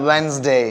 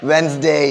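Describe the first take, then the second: The two takes are said the same way.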